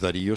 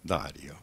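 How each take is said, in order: First: The stress is on the second syllable. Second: The stress is on the first syllable. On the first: The speaker calls it wrong. "no es Darío" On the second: The speaker calls it right. "sino que es Dario"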